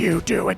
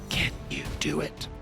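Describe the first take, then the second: First: It is said in a normal voice. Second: It is said in a low whisper.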